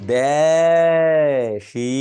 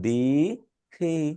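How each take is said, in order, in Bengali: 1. প্রথম স্বরধ্বনি e, দ্বিতীয়টি i। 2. দুটি স্বরধ্বনিই একই i ধ্বনি।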